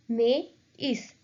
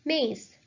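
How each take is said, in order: First: "Maize" broken in two, MA, pause, EESS; vowels split apart. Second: Said in the usual way. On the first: Shown as a demonstration.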